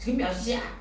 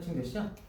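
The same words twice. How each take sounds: First: It sounds sharp and scolding, like a reprimand. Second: It sounds like a plain, neutral question. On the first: The asker is rebuking someone for coming home too late. "새벽 세 시에 들어왔을 때 엄마가 할 수 있는 거지?" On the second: The asker simply wants to know the time. "이거는 이제 시간이 궁금한데 시계가 없어서 물어볼 수 있잖아요"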